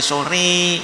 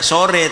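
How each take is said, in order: First: The final vowel leans strongly toward 'i'. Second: The final vowel is a plain, ordinary 'e'. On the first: The speaker calls it right. "imalah kubro harus ... tapi sore" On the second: The speaker calls it wrong. "tidak sore"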